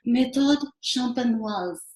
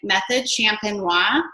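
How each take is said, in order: First: It is said with a French pronunciation. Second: It is said with an English pronunciation. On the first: The speaker calls it right. "hold on here for my French accent" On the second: The speaker calls it wrong. "because I was like"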